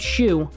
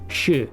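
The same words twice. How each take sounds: First: The vowel is like the English word shoe. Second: The vowel is the plain Japanese u sound. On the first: The speaker calls it wrong. "Don't pronounce it shoe" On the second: The speaker calls it right. "It's shoe. ... a so subtle difference there in the ways that U is pronounced"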